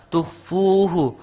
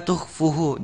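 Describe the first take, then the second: First: Tuhfuhu with a slow, held 'fuu'; long waw. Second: Tuhfuhu with a short 'fu'; dropped waw. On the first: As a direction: draw out the middle of Tuhfuhu. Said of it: "maka dibaca panjang". (Tuhfuhu, 'fu' dibaca panjang) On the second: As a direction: hurry past the 'fu' in tuhfuhu. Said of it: "Jangan menghilangkan huruf wawnya". (tuhfuhu tanpa panjang pada 'fu') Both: Shown as a demonstration.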